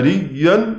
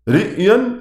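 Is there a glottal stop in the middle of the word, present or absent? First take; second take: absent; present. First: The glottal stop is replaced by a long y-sound. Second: A glottal stop is pronounced in the middle. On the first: It could be taken to mean being filled with water. The speaker calls it wrong. "لو قال فيها ريا" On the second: It refers to outward appearance seen by the eye. The speaker calls it right. "وهي رئيا يعني متعلقة بالرؤية البصرية"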